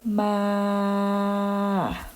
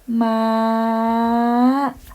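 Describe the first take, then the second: First: The pitch stays level in the middle range. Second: The pitch is high and slightly rising. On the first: "middle tone" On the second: "if it's high tone"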